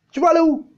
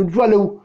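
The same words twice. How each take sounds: First: Higher, mock-incredulous repeat; scoffing question pitched high. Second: Said in the usual way. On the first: Rhetorical question asked twice.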